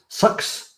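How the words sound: The vowel sounds like the one in 'sucks'. "I think New Zealanders say sucks"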